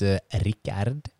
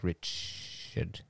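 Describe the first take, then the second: First: The name is pronounced the Swedish way. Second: The name is pronounced the English way. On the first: This is the speaker's real name. "it's not Richard. It's Rickard" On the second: This is the easier form used when speaking English. "I usually say Richard. I don't know why, because it's so much easier"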